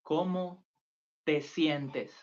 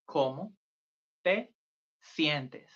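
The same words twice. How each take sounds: First: ¿Cómo te sientes? with a falling end; teacher models the phrase; Spanish model phrase. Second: Syllable by syllable for beginners; word by word. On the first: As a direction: say ¿Cómo te sientes? clearly for repeating. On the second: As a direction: break ¿Cómo te sientes? apart with pauses. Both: Shown as a demonstration.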